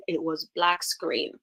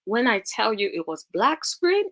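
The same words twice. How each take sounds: First: Black screen said slowly and firmly; slow emphatic. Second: Said in the usual way. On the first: Shown as a demonstration.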